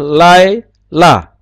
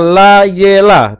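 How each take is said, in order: First: No vowel is sounded between the first two syllables. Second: A short vowel is sounded after the first syllable. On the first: The speaker calls it right. "Harusnya lai, la" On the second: The speaker calls it wrong. "Tapi itu salah"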